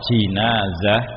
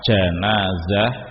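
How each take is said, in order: First: The first syllable has the vowel i. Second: The first syllable has the vowel a. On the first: It names the bier that carries the body. "kalau di kasroh jinazah" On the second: It names the dead body. "jika dibaca fathah janazah"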